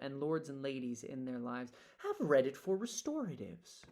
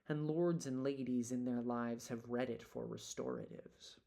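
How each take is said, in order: First: The pitch changes on the second line. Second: Both lines keep the same pitch level. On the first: "change the pitch on the second line" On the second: "Karen's totally fine if we don't breathe"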